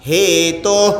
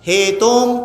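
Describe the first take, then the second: First: The word ends with a breathy release. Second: The word ends with a nasal hum. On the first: The speaker calls it right. "విసర్గలో శబ్దం మాత్రం వస్తుంది" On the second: The speaker calls it wrong. "హేతోం తప్పు కదా"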